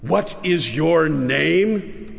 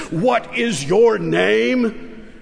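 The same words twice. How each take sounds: First: Slow, stern king repeating the question; slow stern demand. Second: Higher, slow, angry demand; rising anger. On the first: King coldly repeats his question to the boy, slow and stern. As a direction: weigh each word like a warning. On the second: Red-faced king demands the boy's name again, angry and slow. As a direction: press the question with mounting fury. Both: A narrator's reading.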